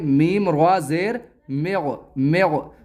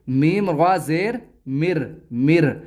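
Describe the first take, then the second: First: The r is pronounced heavy and full. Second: The r is pronounced light and thin. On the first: The speaker calls it right. "बल्कि इसको पुर करके पढ़ेंगे" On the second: The speaker calls it wrong. "इसको हम बारीक नहीं पढ़ेंगे, ऐसे नहीं पढ़ेंगे"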